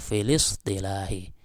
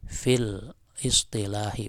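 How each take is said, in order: First: The words are linked, with no glottal onset between. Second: The second word starts with its own separate glottal onset. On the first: The speaker calls it right. "tapi filis ya, filis istilahi" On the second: The speaker calls it wrong. "Jadi cara membacanya bukan gini"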